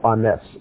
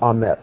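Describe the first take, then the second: First: The word ends with an s sound. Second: The word ends with a t sound. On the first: "some as an S" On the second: "Some people pronounce the last letter as a T"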